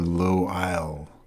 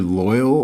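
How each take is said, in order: First: It is said as two parts, 'low' and 'isle'. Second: It is said smoothly, like the word 'loyal'. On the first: "or low isle" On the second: "either loyal"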